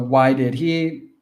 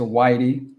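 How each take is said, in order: First: Each word is said fully and separately. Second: The words are reduced and run together.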